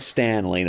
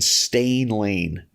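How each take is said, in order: First: The first name has the vowel of 'man'. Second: The first name has the vowel of 'rain'. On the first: The speaker calls it right. "not Stan Lane" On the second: The speaker calls it wrong. "if I mispronounce someone's name right away, I could never change it"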